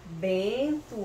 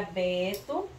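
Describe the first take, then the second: First: "Bento" with a held nasal E. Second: "Beto" with an open oral E; oral vowel BETO. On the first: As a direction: stretch the nasal first syllable of "Bento". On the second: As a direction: say "Beto" with no nasal before the T. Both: Shown as a demonstration. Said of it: "Olha o som".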